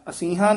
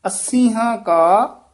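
First: ਅੱਸੀਆਂ quick, with a single light s; loose s. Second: ਅੱਸੀਆਂ slow and higher, doubled ss held; tightened ss. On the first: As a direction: skim over the s, "asīhā̃". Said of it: "ਅੱਸੀਆਂ ਨਹੀਂ ਕਹਿਣਾ". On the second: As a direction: lean hard on the s, "assīhā̃". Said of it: "ਕਸ ਕੇ ਉਚਾਰਨ ਕਰਨਾ ਹੈ". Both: Shown as a demonstration.

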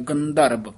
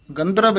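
First: ਗੰਧਰਵ with a break after the ਗ; ਗੰਧਰਵ split. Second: ਗੰਧਰਵ run together, no break; wrong ਗੰਧਰਵ. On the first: Teacher showing ਗੰਧਰਵ broken after ਗ. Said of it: "ਗੱਗੇ ਦੇ ਵਿੱਚੋਂ dash ਦੇਣੀ ਹੈ". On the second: Teacher showing the wrong, run-together ਗੰਧਰਵ. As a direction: say ਗੰਧਰਵ in one rush. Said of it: "ਨਹੀਂ ਕਹਿਣਾ". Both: Shown as a demonstration.

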